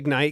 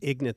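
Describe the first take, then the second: First: The second syllable has a long vowel, like 'night'. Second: The second syllable has a short vowel, like 'nit'. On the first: It uses the name the owners prefer. "We'll call it Ignite" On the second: It mocks the name as it appears to be spelled. "I was just going to say Ignit the whole time because it's I G N I T"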